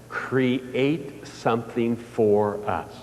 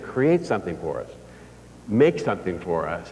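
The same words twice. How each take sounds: First: Slow, drawn-out solemn reading; slow solemn message. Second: Said in the usual way. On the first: Retold or imitated. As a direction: spell out the message word by word, slowly. Morse message read out slowly.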